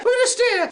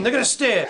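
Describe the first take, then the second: First: High-pitched cartoon bear declaration; bear battle cry. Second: Said in the usual way. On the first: Bears resolving to fight by staring, high-pitched.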